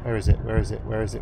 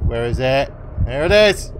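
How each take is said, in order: First: Said in the usual way. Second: Excited. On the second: Real, not acted. Found the dagger.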